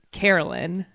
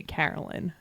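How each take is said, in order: First: Carolyn starting like "care"; Southern friends' pronunciation. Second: Carolyn with flat A as in "cat"; own pronunciation. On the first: Showing what South Carolina friends call her, "care" pronunciation. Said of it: "They call me Carolyn". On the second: Correcting friends' version, flat-A pronunciation. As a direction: say Carolyn with short open A, low. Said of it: "I say Carolyn". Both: Shown as a demonstration.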